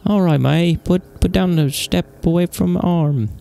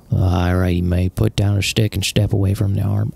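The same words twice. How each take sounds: First: High-pitched, slow British officer voice; British accent pitched well up. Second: Said in the usual way. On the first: Acted. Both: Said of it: "I did, like, a British accent, I think".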